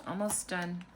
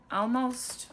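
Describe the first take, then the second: First: Said in the usual way. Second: "almost" lifted higher and louder, drawn out; stressed almost. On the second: Real, not acted. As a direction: lean hard into "almost". Stretching out the word almost.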